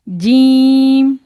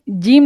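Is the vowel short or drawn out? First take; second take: drawn out; short. First: The vowel is drawn out and lengthened. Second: The vowel is short, not drawn out. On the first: The speaker calls it right. "इसको भी खींच के पढ़ना है" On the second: The speaker calls it wrong. "जीम नहीं कहना है"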